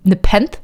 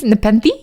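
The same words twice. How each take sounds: First: "nepenth" in two syllables, ne-PENTH; unsure, questioning "nepenth", ending on TH; trying a pronunciation. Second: "Nepenthe" in three syllables, ne-PEN-thee; questioning "Nepenthe", voice rising on thee; trying a pronunciation. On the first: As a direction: sound out "nepenth" with no final vowel. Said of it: "What the fuck is nepenth?". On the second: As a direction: test "Nepenthe" with a final EE. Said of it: "It was, uh, Nepenthe". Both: Shown as a demonstration.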